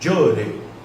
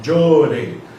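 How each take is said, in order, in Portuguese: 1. A palavra começa com um som duro 'dj'. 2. A palavra começa com um som duro 'dj'.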